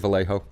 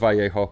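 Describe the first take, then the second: First: The name is said with an American English pronunciation. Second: The name is said with a Spanish pronunciation. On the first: The speaker calls it wrong. "I'm American, so I say Vallejo" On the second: The speaker calls it right. "I know it's Vallejo"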